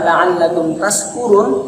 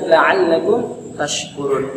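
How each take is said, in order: First: The consonant is a plain s sound. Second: The consonant is an sh sound. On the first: It suggests being drunk. The speaker calls it wrong. "Karena orang ini tidak faham, tidak pernah belajar makharijul huruf" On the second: It means being grateful. The speaker calls it right. "bagi orang yang telah belajar makharijul huruf pasti membacanya"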